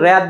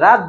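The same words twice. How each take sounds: First: রাত said as "ræt", with the vowel of English cat; রাত mispronounced with an æ vowel; wrong vowel. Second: রাত said as "raat", with an open aa; রাত with a plain open aa vowel; correct vowel. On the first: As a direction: turn the আ in রাত into an æ. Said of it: "উচ্চারণ কিন্তু রাত বলি না". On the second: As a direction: keep a full আ in রাত. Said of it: "রাত বলি". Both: Shown as a demonstration.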